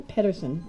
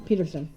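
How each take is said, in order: First: "Pedersen" with a short e as in bed and a d in the middle; "Pedersen" spoken with PED and a soft d; trying the name. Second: "Peterson" with a long ee as in Pete and a t; "Peterson" starting with PEE and a crisp t; other spelling. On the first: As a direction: say "Pedersen" as PED-er-sen, a d not a t. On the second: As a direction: say "Peterson" as PEE-ter-son with a clear t. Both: Shown as a demonstration. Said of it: "Sometimes it's Pedersen and sometimes it's Peterson".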